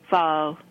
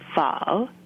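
First: The pitch stays level through the word. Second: The pitch rises upward like a question. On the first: "if you add a little side hook to that O, it becomes pho" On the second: "as if you have an upward lilt in your intonation"

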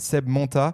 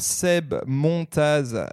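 First: The name ends on a vowel, no z sound. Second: The name ends with an audible z sound. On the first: This is the real local pronunciation. "son vrai nom, c'est Seb Monta" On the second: It is said this way to be easier to understand. "je le prononce pour que ça soit plus compréhensible"

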